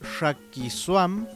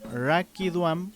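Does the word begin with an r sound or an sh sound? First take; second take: sh; r. First: The word begins with an sh sound. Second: The word begins with an r sound. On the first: This is how it is said in the Huilliche region. "Cuando pronunciamos también Shakiswam" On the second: This is how it is said in other regions. "en otros territorios dirían Rakiduam"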